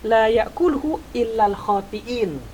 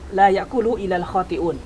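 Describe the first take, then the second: First: The last word ends with an 'in' sound. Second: The last word ends with an 'un' sound. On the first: The speaker calls it wrong. "salah bacaannya" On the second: The speaker calls it right. "Yang benar adalah"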